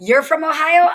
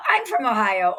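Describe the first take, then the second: First: Bright friendly. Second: Said in the usual way. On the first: Retold or imitated. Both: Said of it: "it started with a".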